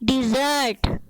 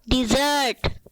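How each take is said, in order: First: The first syllable has an 'i' vowel. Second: The first syllable has an 'i' vowel.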